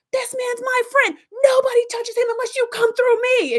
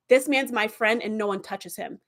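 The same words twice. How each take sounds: First: High, loud, slowed battle cry; fierce protective yell. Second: Said in the usual way. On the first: Retold or imitated. Harry shouting down the gang attacking his friend, fierce yell. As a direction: roar it like a man guarding his friend. Harry defends Tom swinging pipe.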